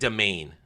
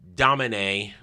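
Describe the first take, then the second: First: The name is said like 'domain'. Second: The name is not said like 'domain'.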